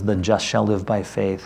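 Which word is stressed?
just. The stress is on "just".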